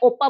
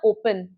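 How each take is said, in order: First: The word is cut short without the final 'n'. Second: The word ends with a full, clear 'n' sound. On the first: The speaker calls it wrong. "ऐसे नहीं ओपा बोल के छोड़ दिया" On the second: The speaker calls it right. "मैं वो पूरा कर रही हूँ, लॉन्ग प्रोनाउंसिएशन"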